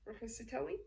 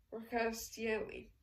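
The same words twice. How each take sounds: First: "Roccastielli" with a rise at the end; questioning echo. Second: "Roccastielli" drawn out slowly as an answer; slow statement. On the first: Colonel queries the Count's clue, "Roccastielli" rising in question. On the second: Count names the wine to colonel, "Roccastielli" slow and declarative. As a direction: state "Roccastielli" slowly, without a questioning rise. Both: A narrator's reading.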